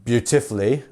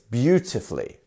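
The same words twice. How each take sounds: First: The stress falls on a later syllable. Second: The stress falls on the first syllable. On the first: The speaker calls it wrong. "we don't have" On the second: The speaker calls it right. "It's beautifully"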